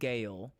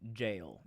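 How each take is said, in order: First: The word begins with a hard G sound. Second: The word begins with a soft J sound. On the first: The speaker calls it wrong. "I pronounced it Gale for a long time" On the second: The speaker calls it right. "they said it was jail"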